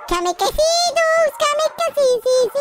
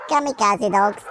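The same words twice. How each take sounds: First: KAMIKAZE in a high, drawn-out squeal; silly squeal. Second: Said in the usual way. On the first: Pretend. Player cheers on Kamikaze dogs, high silly squealing.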